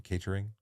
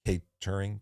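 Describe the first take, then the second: First: Kate Turing blended into one word, catering; questioning rise on catering; run together. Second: Kate Turing said as a name, Kate then Turing; two separate words. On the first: Host testing the pun, catering as one word. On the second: Host working out the pun, Kate Turing as two words. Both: Shown as a demonstration.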